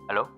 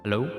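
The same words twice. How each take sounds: First: The voice sounds thin and filtered like a radio. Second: The voice has heavy reverb, echoing like a hall. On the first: "And then radio voice" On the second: "The reverb preset"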